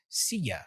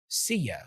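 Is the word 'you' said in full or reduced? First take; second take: reduced; reduced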